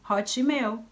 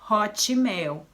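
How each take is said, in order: First: It is said with a Brazilian Portuguese accent. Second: The same.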